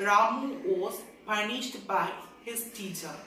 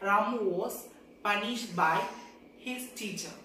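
No difference in how they are said.

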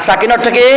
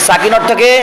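No difference in how they are said.

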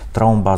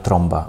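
First: The vowel is pronounced as a nasal vowel. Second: The vowel is a plain o followed by m. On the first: "щоб ви старалися вимовляти ці носові" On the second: "якщо будуть вимовляти ОМ"

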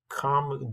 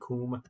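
First: Come has its usual vowel, unlike doom. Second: Come has the vowel of doom.

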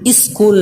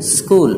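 First: A short vowel is added before the s. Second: The word starts directly with the s sound. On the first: The speaker calls it wrong. "स्कूल नहीं" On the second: The speaker calls it right. "हल्के से सीन की आवाज़"

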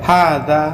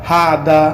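First: The word ends with an open 'a' vowel. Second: The word ends with an open 'a' vowel.

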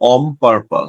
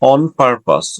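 First: The first word ends with an m sound. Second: The first word ends with an n sound.

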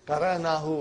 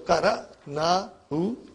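First: The word is said smoothly as one unit. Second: The word is said slowly in separate parts. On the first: The speaker calls it right. "We'll say" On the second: The speaker calls it wrong. "I'm only saying it slowly and breaking it down for you to understand"

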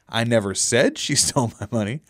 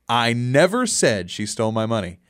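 First: The stress is on the word 'said'. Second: The stress is on the word 'never'. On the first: The speaker implied it but did not say it. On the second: The speaker denies ever saying it.

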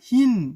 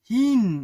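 Both takes have the same delivery.

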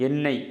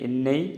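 The two takes are said the same way.

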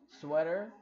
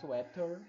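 First: It is said with an American accent. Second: It is said with a British accent.

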